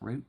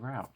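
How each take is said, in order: First: The vowel sounds like the one in boot. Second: The vowel sounds like the one in out. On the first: "some people pronounce it root" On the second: "Some people say route"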